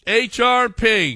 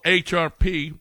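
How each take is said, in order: First: Slow, higher announcer flourish; lingering radio-host letter call; drawn-out segment call. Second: Said in the usual way. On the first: Pretend. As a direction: stretch each letter out, pitched up. Repeats segment name as announcement.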